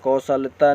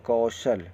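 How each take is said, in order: First: कौशलता loud, with an extra "ta" ending; कौशलता ending on a long taa; wrong word form. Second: कौशल ending on l, without ta; कौशल in two syllables, no added ending; correct word form. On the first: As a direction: add the mistaken ta to कौशलता. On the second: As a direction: close कौशल on the l. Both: Shown as a demonstration. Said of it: "कौशलता नहीं".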